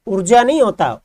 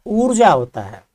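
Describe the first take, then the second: First: ऊर्जा said as the wrong spelling, louder; गलत रूप, ज़ोर देकर; wrong form marked. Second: ऊर्जा said plainly as the right form; सही रूप, सहज स्वर; correct form given. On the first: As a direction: set the wrong ऊर्जा apart firmly. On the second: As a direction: settle on the right ऊर्जा calmly. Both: Shown as a demonstration.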